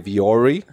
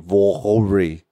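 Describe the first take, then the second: First: The name is said with an American pronunciation. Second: The name is said with a German pronunciation. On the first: The speaker calls it wrong. "Americans say Vori" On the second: The speaker calls it right. "it's really Vori"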